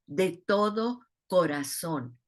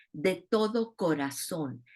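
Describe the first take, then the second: First: "de todo corazón" said slower and heavier, stress on "todo"; slow emphatic repeat. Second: Said in the usual way. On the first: Shown as a demonstration. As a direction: lean on "todo" and draw out "corazón" at a slower pace.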